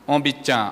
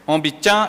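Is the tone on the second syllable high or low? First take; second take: low; high. First: The second syllable has a low tone. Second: The second syllable has a high tone. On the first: I tied myself up. "Agora é tom baixo" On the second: Someone washed me. "O tom na segunda sílaba, ... é mais forte, né? É o tom alto"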